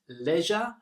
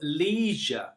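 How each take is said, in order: First: It is said with a British pronunciation. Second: It is said with an American pronunciation.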